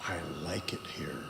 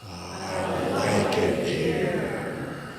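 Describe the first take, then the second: First: Whispered on the exhale; soft whispered phrase. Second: Deep and very slow from the belly; slow resonant low voice; low, slow natural voice. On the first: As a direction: breathe the words out unvoiced. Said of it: "I want you to say". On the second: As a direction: let it resonate low from the chest. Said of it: "rather than say". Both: Shown as a demonstration.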